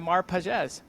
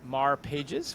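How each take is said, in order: First: The name is said with its native pronunciation. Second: The name is said with an English reading. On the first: The speaker calls it right. "I think I got your name pronunciation right" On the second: The speaker calls it wrong. "So many people say it Mar Pages, which, if you're English, that is how it looks"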